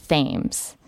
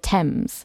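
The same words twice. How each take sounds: First: The name is said as it is spelled. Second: The name is not said as it is spelled. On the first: The speaker calls it wrong. "Because I always want to say Thames" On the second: The speaker calls it right. "I always have to tell myself it's the Thames"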